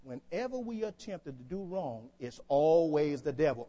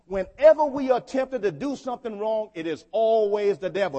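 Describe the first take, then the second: First: Said in the usual way. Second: Loud, raised preaching voice; emphatic repeat. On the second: Real, not acted. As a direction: drive it home to the congregation, louder. Repeats it after asking if they listen.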